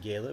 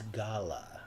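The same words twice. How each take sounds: First: The word is pronounced in an ordinary everyday way. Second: The word is pronounced in a posh, highbrow way.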